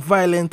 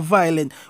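First: It is said with a Jamaican Patois pronunciation. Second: It is said with a standard English pronunciation. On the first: "whether you say it in a patois" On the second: "or you say it in a English"

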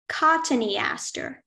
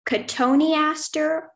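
First: The word begins like 'cotton', not with 'co-toe'. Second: The word begins with 'co-toe', not like 'cotton'. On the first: "It could be pronounced cotoneaster or cottoneaster" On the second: "It could be pronounced cotoneaster or cottoneaster"

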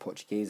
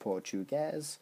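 First: The word is pronounced the native Portuguese way. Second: The word is pronounced the usual English way.

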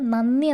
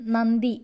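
First: The middle cluster is pronounced nn. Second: The middle cluster is pronounced nd. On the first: This is how the word is said in everyday speech. "എന്നാണല്ലോ പറയുന്നത്" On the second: This is the written form of the word. "എന്നെഴുതുന്നത്"

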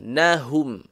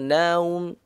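First: The h sound is clearly breathed out. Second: The h sound in the middle is dropped. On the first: The speaker calls it right. "Bagi betul-betul keluar angin ya" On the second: The speaker calls it wrong. "jangan naum"

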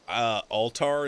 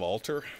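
First: The second syllable rhymes with 'tar'. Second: The second syllable does not rhyme with 'tar'. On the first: The speaker calls it wrong. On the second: The speaker calls it right.

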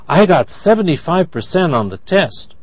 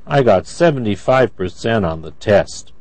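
First: The voice sounds happy. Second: The voice sounds sad. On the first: The speaker is pleased with the score. "That's happy" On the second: The speaker feels down about the score. "That's sad"

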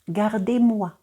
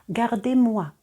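The two takes are said the same way.

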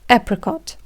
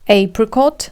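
First: It is said in an American accent. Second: It is said in a British accent. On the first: "Американці кажуть apricot" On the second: "Британці кажуть apricot"

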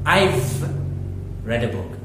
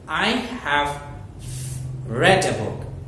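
First: "I have" is joined into one syllable. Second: "I have" is said as two full words.

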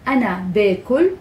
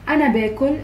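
First: It is said slowly and carefully. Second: It is said quickly and casually.

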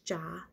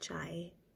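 First: The word ends in a plain open vowel. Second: The word ends with an 'ee' glide. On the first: This is the Gujarati form of the word. "in Gujarati it's cha" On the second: This is the Hindi form of the word. "not chai"

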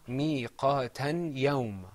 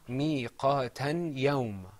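First: The n sound is heard clearly before yawm. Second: The n sound is heard clearly before yawm.

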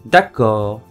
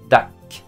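First: The word is said in full, two syllables. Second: The word is clipped to one short syllable. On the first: A neutral way to agree. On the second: A casual spoken way to agree with friends and family.

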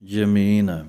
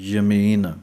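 No difference in how they are said.

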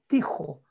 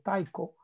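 First: The name is said with German pronunciation. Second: The name is said with English pronunciation. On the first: "en alemán sería como Tijo, porque la C H es como J" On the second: "En inglés hablan de Tycho"

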